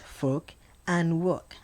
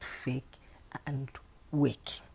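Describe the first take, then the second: First: The vowels are an 'or' and an 'er' sound. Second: Both words carry an 'air'-like vowel sound. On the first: The speaker calls it right. "pronounce the words as fork and work" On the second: The speaker calls it wrong. "and not fake and wake"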